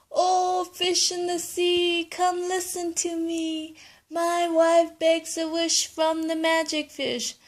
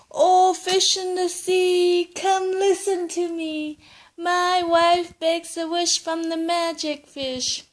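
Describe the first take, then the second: First: High singsong chant to the fish; calling out the rhyme. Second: High, loud, slow chant to the fish; calling out the rhyme. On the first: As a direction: call the magic fish from the shore. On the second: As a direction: call across the sea in a singsong. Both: Acted. Grandpa calls the fish rhyme.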